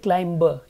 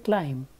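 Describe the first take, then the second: First: The final B is pronounced. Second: The final B is silent. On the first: The speaker calls it wrong. "You don't say climber" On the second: The speaker calls it right. "you just say climb"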